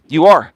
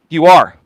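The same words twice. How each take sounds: The two takes are said the same way.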